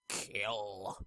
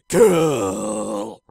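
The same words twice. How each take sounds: First: It is said flatly, without much emphasis. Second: It is said with strong, forceful emphasis.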